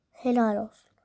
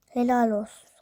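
First: "Helal olsun" whispered with no voice; whispered sarcasm. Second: Mock "Helal olsun" said out loud, with stress on "helal"; sarcastic praise. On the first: Acted. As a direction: hiss "Helal olsun" under your breath. Repeats the praise under her breath. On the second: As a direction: call out "Helal olsun" as a taunt.

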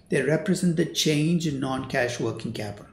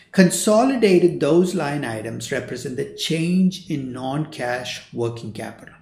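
First: Said in the usual way. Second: "those line items represent the change in non-cash working capital" drawn out slowly; slow and deliberate. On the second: Shown as a demonstration. Lecturer slowly spells out a key definition for students. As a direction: lay the definition out slowly, word by word. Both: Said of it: "Let me repeat that again".

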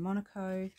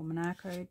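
First: "Monaco" with the weight on the opening syllable; stress on first syllable. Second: "Monaco" with a long, stressed middle "ah"; stress on second syllable. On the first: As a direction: say "Monaco" as MON-a-co. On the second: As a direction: say "Monaco" as mo-NAH-co. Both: Shown as a demonstration. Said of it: "depending how you pronounce it".

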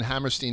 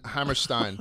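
First: "Hammerstein" ending in "-steen". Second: "Hammerstein" ending in "-stine", rhyming with "fine". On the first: Host naming the musical's writers, "Hammerstein" pronounced with a "-steen" ending. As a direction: say "Hammerstein" with its last syllable like "steen". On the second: Host taking the co-host's correction, "Hammerstein" pronounced with a "-stine" ending. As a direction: say "Hammerstein" with its last syllable like "stine". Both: Real, not acted.

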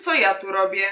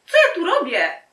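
First: Said in the usual way. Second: Much higher, mock-girlish voice; high-pitched flustered question. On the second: Girl wonders why she is here, high and flustered. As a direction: ask it way up high. Repeated take in put-on high voice.

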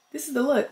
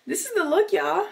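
First: Said in the usual way. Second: High, excited reveal; bright excited showcase of the look; showing off. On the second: Real, not acted. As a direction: present the outfit proudly. Showing off her airport outfit.

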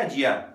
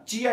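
First: जिया begun with j; the j pronunciation of जिया. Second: चिया begun with ch; the ch pronunciation of चिया. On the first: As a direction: give जिया its j sound, as in jam. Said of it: "some Chinese को जिया भी pronounce". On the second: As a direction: give चिया its ch sound, as in chair. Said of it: "इसको चिया pronounce किया जाता है". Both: Shown as a demonstration.

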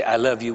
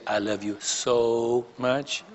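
First: Said in the usual way. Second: Drawn-out soft "so", slow and lingering; stress on so. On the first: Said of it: "we would never just say". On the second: Shown as a demonstration. Preacher recalling courting days, lingering on "so". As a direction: stretch the "so" long and tender. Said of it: "We would say".

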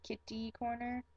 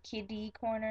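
First: Kitty corner with a crisp t, "KIT-tee"; pronounced with T. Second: Put-on kiddie corner with a soft d, "KID-ee"; pronounced with D. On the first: Contrasting with local speech, kitty corner with a T. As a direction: sound the t in kitty. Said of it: "instead of kitty corner". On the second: Showing local speech, kiddie corner with a D. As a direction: voice the middle of kiddie as a d. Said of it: "we kinda pronounce it with a D". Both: Shown as a demonstration.

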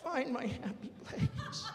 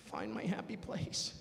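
First: Slow, higher, half-laughing chant; slow laughing plea to himself; laughing mantra. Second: Slow, self-soothing chant; slow calming mantra to himself. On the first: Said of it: "mantra repeated, higher, laughing". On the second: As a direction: talk yourself down slowly. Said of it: "calming himself mantra". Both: Pretend.

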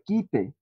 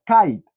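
First: Quite read letter by letter as Spanish, kee-teh; spelling-style reading. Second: Kite said the English way, like kait; English pronunciation. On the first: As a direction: say quite the way it is written, Spanish vowels. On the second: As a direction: give kite its English sound, rhyming with bite. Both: Shown as a demonstration. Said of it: "Pero se pronuncia kite".

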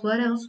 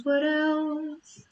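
First: Said in the usual way. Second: High, playful sing-song musing. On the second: Acted. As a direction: lilt it up playfully. Musing aloud, sing-song repeat.

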